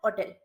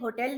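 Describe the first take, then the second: First: The word begins with a vowel, no h sound. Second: The word begins with an audible h sound. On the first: The speaker calls it right. "Silent H ... vowel का pronunciation" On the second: The speaker calls it wrong. "होटल नहीं होता"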